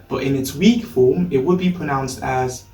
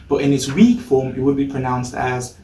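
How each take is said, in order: No difference in how they are said.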